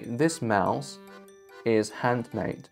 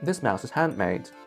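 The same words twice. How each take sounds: First: Handmade is said carefully with an nd sound. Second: Handmade is said quickly with an m sound.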